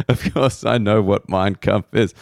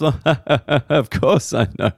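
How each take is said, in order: First: Said in the usual way. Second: Mock defensive. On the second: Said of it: "he just, like, laughed".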